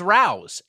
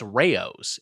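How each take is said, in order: First: The name is said as one syllable. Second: The name is said as two syllables. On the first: The speaker calls it wrong. "I thought it was Rao's" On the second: The speaker calls it right. "It's two syllables"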